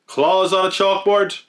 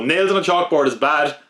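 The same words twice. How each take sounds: First: "Claws" punched higher, drawn out slowly; stress on Claws. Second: Said in the usual way. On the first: Shown as a demonstration. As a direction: hit "Claws" hard, then rise on "chalkboard?".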